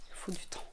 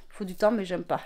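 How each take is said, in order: First: Il faut du temps breathed out unvoiced, much softer; half to herself, in a whisper; whispered aside. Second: Said in the usual way. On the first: Real, not acted. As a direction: mutter Il faut du temps under your breath. Repeats phrase, then says it aloud.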